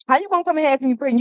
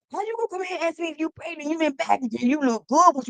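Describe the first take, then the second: First: Fast, loud, incredulous scold; quick mock telling-off; sassy scold. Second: High, fast put-on scold; high-pitched mock telling-off; sassy scold. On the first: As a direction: rattle it off, scolding the caller. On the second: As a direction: repeat it in a higher mocking voice. Same scold repeated.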